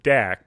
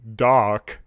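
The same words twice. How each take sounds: First: The vowel does not rhyme with quark. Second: The vowel rhymes with quark. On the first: The speaker calls it wrong. "I would pronounce it Dak, but Paul has corrected us" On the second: The speaker calls it right. "like Quark"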